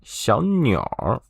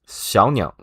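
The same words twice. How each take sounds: First: The word ends with a relaxed r sound. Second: The word ends without an added r sound.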